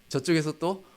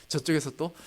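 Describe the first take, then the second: No difference in how they are said.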